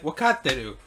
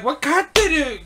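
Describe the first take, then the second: First: Said in the usual way. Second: "Wakateru?" echoed much higher and louder, puzzled; incredulous echo. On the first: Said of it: "and they're like". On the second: Retold or imitated. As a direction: repeat "Wakateru?" as a baffled, high question. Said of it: "he's like".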